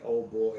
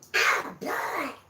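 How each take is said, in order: First: It is said in a normal voice. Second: It is said in a Donald Duck voice.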